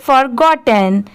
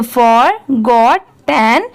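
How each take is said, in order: First: "forgotten" run together as one word; at speed. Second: "forgotten" very slow, split as for, got, ten; in three parts. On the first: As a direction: join for, got and ten in "forgotten" without pauses. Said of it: "अब इसे speed में पढ़ेंगे". ("forgotten" को speed में, बिना रुके एक साथ बोलें) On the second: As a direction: pause between each part of "forgotten": for... got... ten. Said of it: "जब इन तीनों को साथ में मिला देंगे". ("forgotten" को तीन टुकड़ों में, रुक-रुककर धीरे बोलें) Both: Shown as a demonstration.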